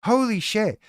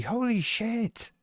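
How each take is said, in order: First: Higher exclaimed holy shit; mock shock. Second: Slow, higher, hushed holy shit; stunned mock statement. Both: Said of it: "Their comment is gonna be".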